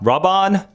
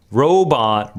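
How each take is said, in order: First: "Robon" with a short AH first, higher; trying another pronunciation. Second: "Robon" with a long OH first; trying a pronunciation. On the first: Streamer retrying a viewer's name, "Robon" as higher RAH-bon. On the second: Streamer puzzling out a viewer's name, "Robon" as ROW-bon. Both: Shown as a demonstration. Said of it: "you're unpronounceable".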